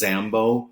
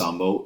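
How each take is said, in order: First: The word begins with a buzzing Z sound. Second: The word begins with a hissing S sound. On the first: The speaker calls it wrong. "It's not pronounced zambo" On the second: The speaker calls it right. "in Spanish, of course, the Z makes an S sound"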